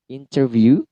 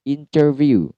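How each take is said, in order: First: A clear t sound follows the n. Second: The same.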